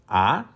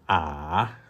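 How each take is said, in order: First: The pitch rises from middle to high. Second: The pitch dips low, then rises again. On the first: "The second tone would start with mi, ending with so... as if you are driving up the hill" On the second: "The third tone is when you are driving down the hill and uphill again"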